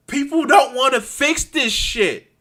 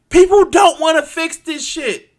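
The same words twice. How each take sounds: First: Raised, high exasperated complaint; frustrated anger. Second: Real high, loud outburst of frustration; furious shout. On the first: Ranter fed up that nobody fixes things, frustrated. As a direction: let real frustration lift the voice. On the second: Ranter boiling over at people's inaction, furious shout. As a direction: yell it at full force, exasperated. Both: Real, not acted. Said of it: "I'm so frustrated".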